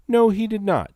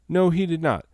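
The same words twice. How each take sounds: First: 把“No”说得又高又响，断然否认; 第一遍用力顶回去：“No”高而响; 强调否认. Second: 重复一遍，“No”依然偏高，但稍收一点; 第二遍略缓和地重申; 再次否认. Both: Shown as a demonstration.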